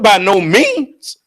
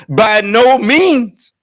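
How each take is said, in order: First: "by no means" drawn out high, rising on "means"; emphatic refusal. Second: "By no means" very slow and high, falling on "means"; emphatic. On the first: Retold or imitated. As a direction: stretch "by no means" slowly, lifting "means" at the end. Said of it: "He put an emphasis on it". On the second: Shown as a demonstration. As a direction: hammer out each word of "By no means", closing downward. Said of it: "that's an emphatic".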